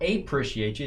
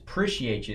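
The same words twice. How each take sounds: First: The word begins with a full 'a' sound. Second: The word drops the 'a' and begins with 'p'. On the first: The speaker calls it wrong. "It's not appreciate you" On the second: The speaker calls it right. "it's just appreciate you. It starts with a P"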